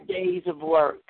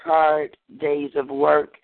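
First: High first take. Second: Slow, drawn-out opening line; slow deliberate reading. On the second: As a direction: start the poem slowly, savoring it. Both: Shown as a demonstration.

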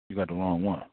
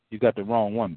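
First: Softer, lower, letting it land; quiet repeat. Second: Said in the usual way. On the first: Real, not acted. Preacher repeats the warning softly to the congregation. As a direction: drop the voice for emphasis.

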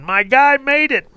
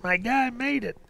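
First: Much higher, excited cheer; fan screaming. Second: Fading echo. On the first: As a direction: shout it at the TV in triumph. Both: Retold or imitated. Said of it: "everybody's screaming".

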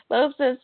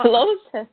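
First: Said in the usual way. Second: Says it through a real laugh. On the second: Real, not acted. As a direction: giggle the words out.

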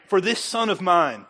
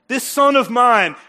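First: Said in the usual way. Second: Slow, loud and higher on This son of mine; emphatic. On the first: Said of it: "I want you to write". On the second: Shown as a demonstration. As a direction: lean on son and draw it out. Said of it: "your name".

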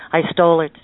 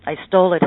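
First: Blurted, pleading confession; gasping man admits the theft; cried confession. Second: Repeated plea, pitched up and louder; confessing theft to the fiddler, rising cry; higher cried confession. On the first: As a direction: confess it in a cry. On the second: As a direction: cry it out again, more desperate. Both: A narrator's reading. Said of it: "he cried".

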